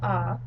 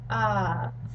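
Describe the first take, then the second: First: The vowel is held only briefly. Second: The vowel is held for longer. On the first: "a short A would be ah" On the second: "a long A would be ah"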